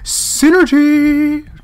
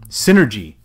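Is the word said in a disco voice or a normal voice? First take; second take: disco voice; normal voice. First: It is said in a showy disco voice. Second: It is said in his normal voice.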